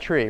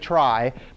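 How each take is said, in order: First: The word sounds exactly like tree. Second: The word sounds like try, not tree. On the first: The speaker calls it wrong. "you'd pronounce that tree" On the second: The speaker calls it right. "you don't want to call it a tree"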